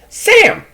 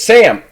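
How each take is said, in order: First: It is said in a put-on interviewer voice. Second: It is said in his ordinary voice.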